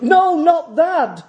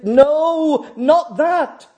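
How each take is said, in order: First: Slow, high, weighted no; slow emphatic rebuke. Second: Quick firm no, pitched up; firm rebuke. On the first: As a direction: draw out each word to halt him. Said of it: "As John falls in worship". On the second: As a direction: snap out a short correction. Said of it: "is how Moffat translates it". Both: Retold or imitated.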